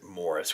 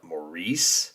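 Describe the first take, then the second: First: The name sounds like the word 'Morris'. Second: The name sounds like 'Mo-reese', ending in 'reese'. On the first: This is how the name is said where it comes from. "I guess you pronounce it Morris" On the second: This is how the name is said where the speaker lives. "I would call it Maurice"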